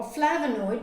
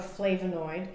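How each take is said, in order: First: "flavonoid" with a put-on regional vowel; alternative pronunciation of "flavonoid". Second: Said in the usual way. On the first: Shown as a demonstration. Showing viewers it depends how you talk, "flavonoid" in regional pronunciation. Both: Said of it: "depending on how you talk".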